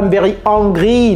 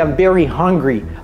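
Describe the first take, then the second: First: The h in hungry is dropped. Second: The h in hungry is pronounced. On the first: The speaker calls it wrong. "Ne dites pas" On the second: The speaker calls it right. "Non, c'est"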